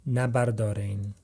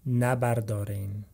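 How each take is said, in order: No difference in how they are said.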